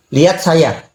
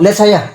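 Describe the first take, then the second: First: Said in the usual way. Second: Firmer command. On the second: Retold or imitated. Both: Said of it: "Nggak mau".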